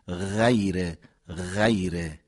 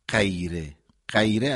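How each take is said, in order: First: The first consonant is a continuous throaty fricative. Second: The first consonant is a short stop like qaf. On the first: The speaker calls it right. "ما حرف غین رو اینطوری تلفظ میکنه، میگیم" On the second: The speaker calls it wrong. "نمیگیم غیره غیره. اگر بگیم میشه قاف"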